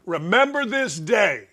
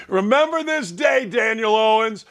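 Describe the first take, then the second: First: Said in the usual way. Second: Laughing. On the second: Real, not acted. Host taunting caller Daniel Owens, laughing. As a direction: laugh it out as a gleeful warning.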